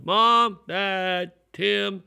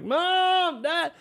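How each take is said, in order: First: Calling out for family, higher pitch; retold yelling. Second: Very high, drawn-out mock panicked call; frantic yelling. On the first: Boy searching the house for his family, retold calling out. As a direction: call through the house, not full force. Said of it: "I remember I started yelling". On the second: Boy finding the house empty, frantic high-pitched calling. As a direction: wail for your parents in acted panic. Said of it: "Then it more like".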